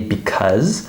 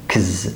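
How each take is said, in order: First: Both syllables are said fully and slowly. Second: Only a k and z sound remain. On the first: This is careful, slower speech. "I speak a little slower than how I would normally speak, so I often say because" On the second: This is very fast speech. "sometimes it's even faster than that, and it just sounds like kz"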